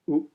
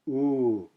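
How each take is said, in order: First: The vowel is held only briefly. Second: The vowel is held noticeably longer. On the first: "the short version" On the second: "then the long version"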